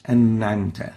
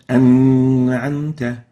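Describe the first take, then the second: First: أنعمت with a still noon, no bounce; أنعمت smooth, noon without qalqala; correct noon. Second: أنعمت with a loud echoing bounce on the noon; wrong qalqala. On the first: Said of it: "it should be pronounced like this". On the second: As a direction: punch the noon in أنعمت with a jolt. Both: Shown as a demonstration.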